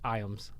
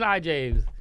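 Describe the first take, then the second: First: The name is said with no J sound. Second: The name is said with a J sound. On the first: The speaker calls it right. "it's pronounced Iams" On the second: The speaker calls it wrong. "I would call him like Ethan I James"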